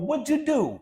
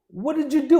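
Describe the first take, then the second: First: 'What did' is contracted into 'what'd'. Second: Every word is said in full.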